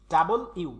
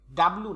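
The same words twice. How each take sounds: First: ডাবল ইউ said as two clear parts, loud and careful; teacher models ডাবল ইউ, both parts distinct; correct pronunciation. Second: ডাবলু run together as one word, the common mistake; ডাবলু with the final ইউ swallowed; wrong pronunciation. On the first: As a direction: separate ডাবল and ইউ deliberately. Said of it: "উচ্চারণ হবে ডাবল ইউ". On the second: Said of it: "ডাবলু না". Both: Shown as a demonstration.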